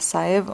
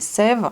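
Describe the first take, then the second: First: The name starts with a two-vowel 'sa-eh' sound. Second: The name starts with a single 'seh' sound. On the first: The speaker calls it wrong. "pas Saèvres" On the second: The speaker calls it right. "mais Sèvres"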